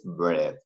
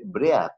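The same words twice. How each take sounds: First: Bread said in English, with a short e and a crisp final t; English pronunciation. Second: Said in the usual way. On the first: Shown as a demonstration. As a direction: say bread the English way, ending in a clear t. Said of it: "pero la pronunciación es bread". (bread pronunciado en inglés, con e corta y t final clara) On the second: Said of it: "se escribe bread".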